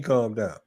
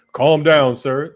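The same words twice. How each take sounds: First: Scoffing repeat, pitched low; outraged disbelief at being told to calm down; incredulous echo. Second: Loud, barked calm down; mocking a cop who shouts calm down; mock cop order. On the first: Real, not acted. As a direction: throw the word back in disbelief. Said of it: "Fuck you mean". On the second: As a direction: bark it like a cop on the stop. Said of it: "They telling you to calm down".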